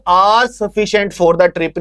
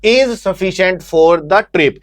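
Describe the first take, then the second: First: "are" stressed as the wrong word. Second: "Is" stressed as the correction. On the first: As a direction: lean on "are" to flag the mistake. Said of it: "नहीं लिखेंगे". ("are" पर ज़ोर) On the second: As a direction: lean on "Is", then read out the rest. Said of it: "बल्कि क्या लिखेंगे". ("Is" पर ज़ोर) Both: Shown as a demonstration.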